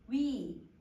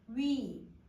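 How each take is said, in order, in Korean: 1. 모음이 한 자리에서 다른 자리로 움직입니다. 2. 모음이 한 자리에서 다른 자리로 움직입니다.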